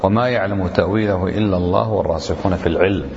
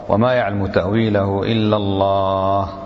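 First: The voice continues without stopping after 'illa Allah'. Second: The voice stops fully after 'illa Allah'. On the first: Those firm in knowledge also know its interpretation. "قراءة الوصل" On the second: Only God knows its interpretation. "قراءة الوقف"

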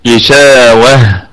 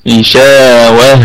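The two takes are said the same way.

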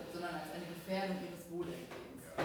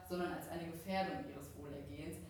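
Both takes have the same delivery.

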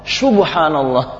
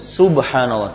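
First: The first sound is a hushing 'sh'. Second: The first sound is a hissing 's'. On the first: The speaker calls it wrong. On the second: The speaker calls it right.

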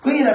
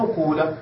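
First: The first vowel is i with rounded lips. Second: The first vowel is a u sound. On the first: "بالكسر مع ضم الشفتين فتشم شيئا من الضمة" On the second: "تترك الضمة كما هي ولكن لا تكسر ما قبل الآخر"

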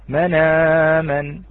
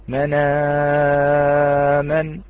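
First: The vowel after the hamza is held short. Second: The vowel after the hamza is held medium.

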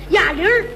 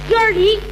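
First: The first syllable is said with a low pitch. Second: The first syllable is said with a high pitch. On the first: This is how Tianjin people say it. "天津发音呢，小音在下边" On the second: This is how Beijing people say it. "北京人发音呢，小音在上边"

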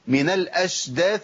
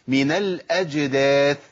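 First: The jim sounds like sh, with breath. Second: The jim sounds like a clear j. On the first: The speaker calls it wrong. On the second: The speaker calls it right.

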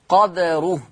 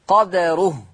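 No difference in how they are said.

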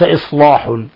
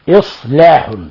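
First: The l sound is heavy and thick. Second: The l sound is thin and light. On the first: This is the reading of Warsh alone. The speaker calls it wrong. "وليس إصلاح ... الذي فخم هو ورش" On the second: This is the reading of Hafs. The speaker calls it right. "عند حفص ليس له إلا ترقيق اللام"

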